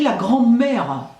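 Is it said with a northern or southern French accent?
southern. It is said with a southern French accent.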